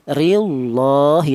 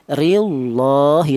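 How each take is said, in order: First: The lam in 'lah' is heavy and thick. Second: The lam in 'lah' is heavy and thick.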